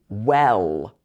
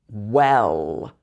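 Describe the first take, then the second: The two takes are said the same way.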